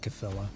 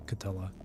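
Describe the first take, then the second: First: The word is said with a th sound. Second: The word is said without a th sound. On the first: The speaker calls it wrong. "not Cthulhu" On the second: The speaker calls it right. "it's actually pronounced as if there's no like th sound"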